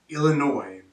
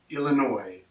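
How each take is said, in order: The two takes are said the same way.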